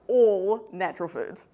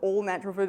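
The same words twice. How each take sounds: First: The stress falls on the word all. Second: The stress falls on the word natural. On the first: Every single natural food is meant. The speaker calls it right. "So like every single natural food contains micronutrients" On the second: The foods are labelled all-natural. The speaker calls it wrong. "I said that in a weird way"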